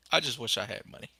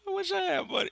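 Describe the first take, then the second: First: Said in the usual way. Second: Squeaky high mock wail; hammed-up high-pitched whimper; mock whine. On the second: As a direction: whine it way up high like a pretend sob. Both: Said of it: "I'm gonna cry now".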